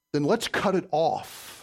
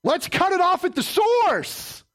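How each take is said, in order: First: Slow and measured. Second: High, slow, shouted declaration; preaching shout. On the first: Counselor to a struggling man, calm and slow. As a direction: lay it down slowly. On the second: Preacher to congregation, shouting the climax. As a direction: shout it out at the source. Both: Acted.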